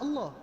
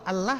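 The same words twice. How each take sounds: First: The L is said heavy and thick. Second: The L is said light and thin.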